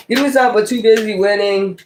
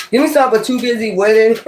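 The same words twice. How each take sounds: First: Said in the usual way. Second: Laughing through it, a bit fast. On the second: Real, not acted. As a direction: giggle your way through the request. Laughing while asking the cards.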